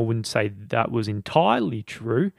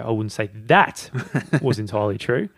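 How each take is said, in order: First: The word "entirely" carries the main stress. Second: The word "that" carries the main stress. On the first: The claim is mostly right but not completely right. "Meaning you're probably more right than you are wrong" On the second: Other parts of what was said were accurate, but not this part. "if you're focusing on that"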